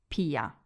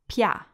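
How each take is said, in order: First: The i is said as a separate vowel. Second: The i is said like a y sound. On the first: The speaker calls it wrong. "not pia" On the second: The speaker calls it right. "the I sounds like a Y. So it's pia"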